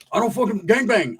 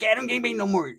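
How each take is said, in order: First: Higher acted denial in an open voice; homeboy without squeak. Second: High, muffled squeaky denial. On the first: High homeboy failing to recognize an old cellmate, raised-pitch denial. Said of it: "But he didn't talk like that". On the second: Retold or imitated. Mustached homeboy explaining himself, high muffled squeak. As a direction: squeak it as if a mustache blocks the sound. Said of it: "a squeaky voice".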